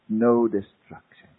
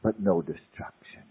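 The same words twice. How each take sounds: First: "No" leaned on, slow, with a falling close; slow it down and hit "No"; "No destruction" stressed on "No", slow and falling; emphatic repeat. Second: Said in the usual way. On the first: Shown as a demonstration.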